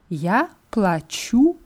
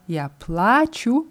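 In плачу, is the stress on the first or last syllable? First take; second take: last; first. First: The stress falls on the last syllable. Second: The stress falls on the first syllable. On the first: I am paying. "hier ist die Betonung auf dem U sehr, sehr wichtig" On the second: I am crying. "mit Betonung auf A heißt ich weine"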